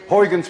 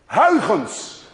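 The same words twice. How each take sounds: First: The name is said with English sounds. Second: The name is said with Dutch sounds. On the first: "I will be kind to you and call it today Huygens principle" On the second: "None of you can say a ch unless you're Dutch. Let alone that you can say the combination Huygens"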